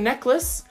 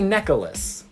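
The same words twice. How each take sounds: First: Neck and less are joined with nothing between. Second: An extra sound is added between neck and less. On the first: The speaker calls it right. "There's no in the middle between neck and less" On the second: The speaker calls it wrong. "I'm going to say it the way that I say it, because I know it's wrong"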